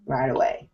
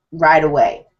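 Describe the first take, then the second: First: "right away" repeated softly and lower; quiet repeated "right away"; soft echo. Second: "right" pressed, falling; "right away" said firmly; emphatic right away. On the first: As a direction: let "right away" fall away to a hush. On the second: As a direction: lean on "right away" with a firm fall. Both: Shown as a demonstration.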